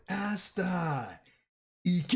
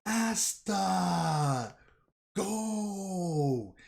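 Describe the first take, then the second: First: High yelled Japanese battle cry calling Asta; screaming it in Japanese. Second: High yelled battle cry calling Asta; screaming a name. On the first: Fan redoes the captain's scream in Japanese, high yell. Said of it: "let me say it in Japanese". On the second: Captain screams at Asta to go, high yelled cry. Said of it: "And he screams". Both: Retold or imitated.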